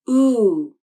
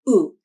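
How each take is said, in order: First: The vowel is long and its pitch glides down. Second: The vowel is short with a flat pitch. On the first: The speaker calls it right. "with an elongated vowel that glides down at the end" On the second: The speaker calls it wrong. "with a short, flat voice"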